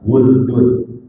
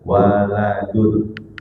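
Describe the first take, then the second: First: It has two syllables, with u after w. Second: It has three syllables, with a after w and l. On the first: "Wuldun bidhammil wawi wa sukunil lam, dengan dhammah wawu dan sukun lam" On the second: "Wa bi fathihima, dan boleh dengan fathah keduanya"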